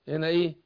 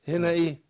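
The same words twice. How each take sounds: No difference in how they are said.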